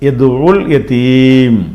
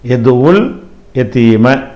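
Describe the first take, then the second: First: The last word ends on the consonant m. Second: The last word ends with a short vowel. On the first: The reading stops at this word. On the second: The reading continues into the next word.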